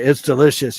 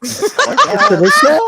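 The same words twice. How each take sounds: First: Southern accent. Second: Slow, high, laughing Southern drawl. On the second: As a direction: stretch it out Southern style. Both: Shown as a demonstration. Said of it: "You should say".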